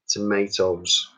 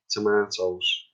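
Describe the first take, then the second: First: It is said with an American accent. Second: It is said with a British accent.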